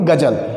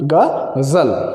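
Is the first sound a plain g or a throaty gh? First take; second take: plain g; throaty gh. First: It starts with a plain g and a j. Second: It starts with a throaty gh and a z. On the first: "तो इस गजल को आप पढ़ेंगे गजल।" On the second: "अगर इस जगह पर नुक्ता लग गया तो ये फिर इसका प्रोनाउंसिएशन जो होता है वो थोड़ा सा अलग हो जाता है।"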